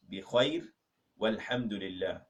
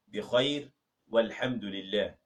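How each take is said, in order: Both takes have the same delivery.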